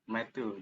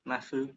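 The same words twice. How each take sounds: First: It is said with an Indonesian accent. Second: It is said with a British accent, blurred t. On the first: "pakai logat Indonesia aja" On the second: "T-nya itu samar, jadi disamar ke F gitu loh"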